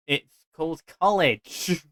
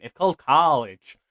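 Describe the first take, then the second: First: Said in the usual way. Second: Put-on American accent on college; mock American pronunciation. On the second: Shown as a demonstration. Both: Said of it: "I didn't say that with an American accent".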